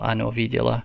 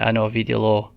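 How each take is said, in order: First: The final syllable is unstressed and reduced. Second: The final syllable carries the stress. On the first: The speaker calls it right. "I don't believe on this word the accent is at the end, so it'd be still" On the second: The speaker calls it wrong. "if the accent was on the end, it would be"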